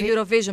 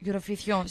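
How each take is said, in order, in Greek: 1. Λέγεται με τη συνηθισμένη της προφορά. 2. Λέγεται με πορτογαλίζουσα προφορά.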